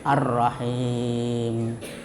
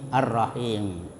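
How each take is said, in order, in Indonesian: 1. Vokal sebelum m akhir dibaca sedang. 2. Vokal sebelum m akhir dibaca singkat. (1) "dibaca sedang, panjangnya empat harakat" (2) "ada yang pendek, ya, seperti mad tabi'i"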